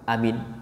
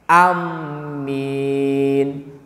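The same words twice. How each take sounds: First: Every sound is short and quick. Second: The m is doubled and the last vowel long. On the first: "Yang simpel lagi" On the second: "A-nya pendek, dimasuk ditasdidkan ke min, ke mim yang panjang"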